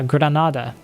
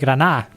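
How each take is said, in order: First: The d sound is clearly pronounced. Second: The d sound is dropped. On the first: "a city in the south called uh" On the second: "but we say"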